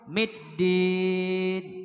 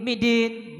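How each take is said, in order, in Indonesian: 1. Konsonan tengahnya ditahan panjang dan ganda. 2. Konsonan tengahnya pendek dan tunggal. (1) "Jadi middin sebenarnya itu dalnya itu dua" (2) "berarti tertinggal huruf tasdid"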